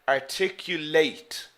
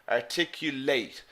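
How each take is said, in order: First: The stress is on the last syllable. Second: The stress is on the last syllable.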